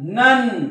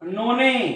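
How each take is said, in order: First: It is said as one syllable, 'nun'. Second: It is said as two syllables, 'no-neh'. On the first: The speaker calls it right. "उच्चार हा अ होतो" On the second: The speaker calls it wrong. "असं म्हणू नका"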